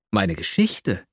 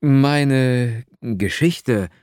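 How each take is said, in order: First: A light startled rise on the question; startled exclaim. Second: Drawn out very slowly, falling at the end; slow, pondering repeat. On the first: Young man asked for his story, a touch startled. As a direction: caught off guard, ask it back lightly. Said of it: "rief ich erschrocken aus". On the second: Young man musing on having no story, drawn out slowly. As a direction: turn the question over slowly, doubting. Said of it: "Meine Geschichte? repeated". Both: A narrator's reading.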